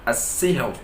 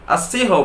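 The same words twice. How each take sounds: First: As-sihr with a thin light final r, softer; correct thin ra. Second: As-sihr with a thick heavy final r, the wrong way. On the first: Teacher gives the right reading, thin ra. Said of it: "yang betul adalah as-sihr". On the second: Teacher demonstrates the wrong reading. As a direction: show the error: as-sihr with heavy ra. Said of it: "Tak boleh dibaca as-sihr". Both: Shown as a demonstration.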